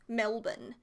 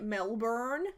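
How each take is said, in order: First: It is said with an Australian accent. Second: It is said with an American accent. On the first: The speaker calls it right. "but it's Melbourne" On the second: The speaker calls it wrong. "Americans say it Melbourne"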